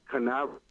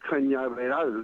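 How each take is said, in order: First: The middle consonant is a plain n. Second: The middle consonant is an ny sound. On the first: The speaker calls it wrong. "not Canaveral" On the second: The speaker calls it right. "it was Cape Cañaveral"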